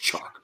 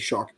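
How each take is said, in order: First: The name begins with a 'ch' sound. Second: The name begins with an 'sh' sound. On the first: The speaker calls it right. "I know it's Chark" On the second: The speaker calls it wrong. "I say Shark"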